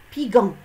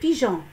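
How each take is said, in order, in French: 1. Le g est dur, comme dans 'go'. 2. Le g est doux, comme le « s » dans 'measure'. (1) "Si on supprime ce E, on va lire" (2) "G E plus O, jo"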